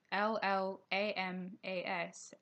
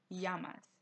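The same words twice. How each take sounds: First: Llamas said with a plain English L; misread L sound. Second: Llamas said with a Y sound at the start; double L as Y. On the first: Teacher showing learners how we may misread it, llamas with an L sound. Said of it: "we may read". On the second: Teacher showing learners the Spanish double L, llamas starting with a Y sound. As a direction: say "llamas" as YAH-mas, no L sound. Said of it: "but it actually makes". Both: Shown as a demonstration.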